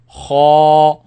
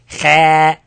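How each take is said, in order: First: The sound is heavy and kept inside the mouth. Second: The sound is light and forward in the mouth. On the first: The speaker calls it right. "I say kha ... Heavy sound stay in the mouth" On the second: The speaker calls it wrong. "I don't say kha"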